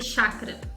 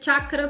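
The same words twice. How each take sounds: First: The word is said with Brazilian Portuguese pronunciation. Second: The word is said with its original pronunciation. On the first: "No Brasil a gente é portuguesa e fala em chakra" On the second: "porque é a pronúncia original"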